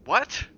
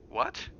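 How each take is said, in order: First: A high, loud frightened shout; sharp shout. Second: Said in the usual way. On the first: Acted. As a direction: Jack barks it at his son. Jack snaps at the boy.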